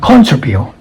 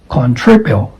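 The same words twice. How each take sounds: First: The stress is on the first syllable. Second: The stress is on the second syllable. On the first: The speaker calls it wrong. "this is not uh" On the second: The speaker calls it right. "the stress falls on the second syllable"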